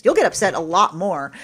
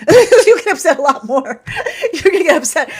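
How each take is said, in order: First: Said in the usual way. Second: High, loud, laughing repeat. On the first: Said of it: "repeats laughing". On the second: Real, not acted. Telling viewers a truth, laughing loudly. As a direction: giggle through it.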